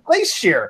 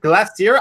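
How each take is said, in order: First: It is pronounced the American way. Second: It is pronounced the British way. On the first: "I always pronounce it glacier" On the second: "they pronounce it glacier"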